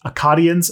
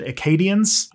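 First: Akkadians with an open "ah" in the second syllable; corrected Akkadians pronunciation. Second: Akkadians with a long "ay" in the second syllable; mispronounced Akkadians. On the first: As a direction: say Akkadians as "uh-KAH-dee-uns". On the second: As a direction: say Akkadians as "uh-KAY-dee-uns", like Acadians. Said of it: "sorry. Akkadians are French people who live in New Brunswick". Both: Real, not acted.

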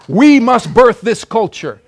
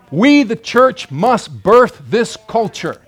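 First: Higher and louder, slow and emphatic; louder repeat. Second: Slow, each word weighted; slow emphatic declaration. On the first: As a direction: press it home harder. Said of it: "repeated louder". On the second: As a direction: drive the call home. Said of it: "preacher emphasis". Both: Real, not acted.

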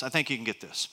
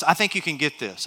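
First: Repeated much softer, lower; quiet. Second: Said in the usual way. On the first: Shown as a demonstration. Pastor reassuring the congregation, soft and low. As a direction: drop it to a soft, lower aside. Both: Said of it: "watch this".

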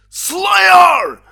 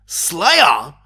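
First: Excited shout. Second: Surprised question. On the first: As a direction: scream the band's name in delight. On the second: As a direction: catch the first notes, unsure. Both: Retold or imitated. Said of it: "I'm like".

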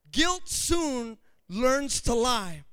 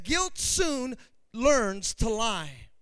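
First: Slow repeat. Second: Slow quote. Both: Shown as a demonstration.

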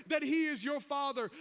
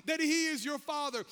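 No difference in how they are said.

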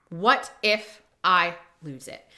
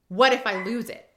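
First: "What if I lose it" slowly, with gaps between the words; slow emphatic repeat. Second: Said in the usual way. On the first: Acted. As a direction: spell out "What if I lose it" word by word, lower. Same worry repeated for emphasis.

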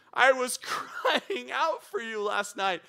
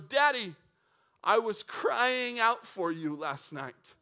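First: Higher, slow, half-laughing imitation of a crying kid; laughing, hammed-up tearful child voice; mock sobbing child. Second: Put-on a touch of a tearful little girl, slow and drawn out; sobbing daughter. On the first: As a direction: ham up the little girl's sob while chuckling. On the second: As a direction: gently echo a child who cried all night. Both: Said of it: "and she's sobbing".

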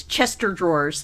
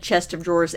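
First: "Chester drawers", with "chest of" run into one name; dialect "Chester drawers". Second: Said in the usual way. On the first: Shown as a demonstration. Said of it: "it was always". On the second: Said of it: "I never said".

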